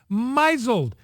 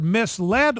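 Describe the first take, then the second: First: The word is pronounced as a garbled misreading. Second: The word is pronounced the ordinary, standard way. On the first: Someone else misread the word this way. The speaker calls it wrong. "she misreads it and pronounces it misled" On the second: This is the word actually written. The speaker calls it right. "she's got a teleprompter with the word misled on it"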